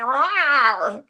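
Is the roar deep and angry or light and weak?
light. The roar is light and weak.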